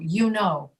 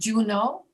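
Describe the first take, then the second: First: The phrase begins with a y sound. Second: The phrase begins with a j sound. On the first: The speaker calls it right. "you know. Not" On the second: The speaker calls it wrong. "not Juno"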